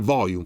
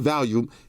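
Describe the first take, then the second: First: The word has the standard 'volume' vowels. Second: The word sounds like the drug name Valium. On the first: The speaker calls it right. "say volume" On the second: The speaker calls it wrong. "don't say volume"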